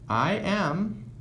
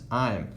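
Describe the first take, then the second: First: It is said as two separate full words. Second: It is said as one short contracted syllable. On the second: "we're gonna shorten that to this"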